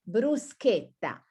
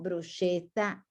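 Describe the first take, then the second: First: The middle consonant is a hard k sound. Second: The middle consonant is a soft sh sound. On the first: The speaker calls it right. "it's this sound, k, k, bruschetta" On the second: The speaker calls it wrong. "No, it's not bruschetta"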